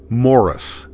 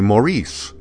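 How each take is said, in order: First: The name is pronounced like Morris. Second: The name is pronounced like Maurice. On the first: The speaker calls it right. "my first name is Morris" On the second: The speaker calls it wrong. "most people would say Maurice"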